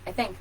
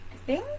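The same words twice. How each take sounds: First: The pitch falls at the end. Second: The pitch rises at the end. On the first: The speaker sounds sure of themselves. The speaker calls it right. "Stop doing it" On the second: The speaker seems to be questioning themselves. The speaker calls it wrong. "That high pitch at the end"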